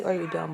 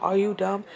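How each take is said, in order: First: Said in the usual way. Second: Louder, pointed "are you dumb"; pointed challenge. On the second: Real, not acted. Annoyed child asking mother after all, pointed challenge. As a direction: really ask it, with more force.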